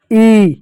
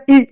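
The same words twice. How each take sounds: First: ई held out long. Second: ई said short and cut off quickly. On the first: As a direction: stretch ई into a long steady vowel. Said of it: "उसका लंबा उच्चारण के रूप में". (बड़ी ई, लंबी खींचकर) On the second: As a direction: give ई as a brief vowel. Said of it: "के रूप में छोटी ई की मात्रा". (छोटी ई, झट से बोली हुई) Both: Shown as a demonstration.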